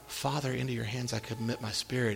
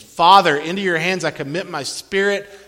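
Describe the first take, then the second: First: It is said quietly, without force. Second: It is shouted out as a loud proclamation.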